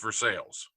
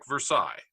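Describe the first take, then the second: First: It is said the local American way. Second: It is said the standard French way. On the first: "but in Ohio it's Versailles" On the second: "which is spelled just like Versailles"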